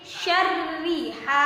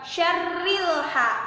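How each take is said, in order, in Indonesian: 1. Tidak ada konsonan tambahan yang menghubungkan kedua kata. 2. Bunyi L menghubungkan kedua kata. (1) "tapi syarri ha" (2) "bukan syarril ha"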